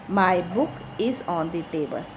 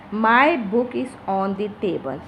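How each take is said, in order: First: Said in the usual way. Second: "my" leaned on at the start; stress on my. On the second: Shown as a demonstration. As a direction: put the weight on the opening word "my". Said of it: "It is giving much pressure".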